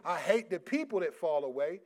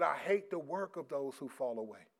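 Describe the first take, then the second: First: "people" lifted as the contrast word; stress on PEOPLE. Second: "work" set out as the contrast word; stress on WORK. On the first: Preacher showing what the verse didn't say, stress on "people". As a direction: punch "people" to mark the misreading. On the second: Preacher correcting a misreading of the verse, stress on "work". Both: Shown as a demonstration. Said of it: "It didn't say".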